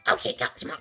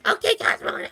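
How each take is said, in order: First: The voice does not sound like Timmy. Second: The voice is an imitation of Timmy.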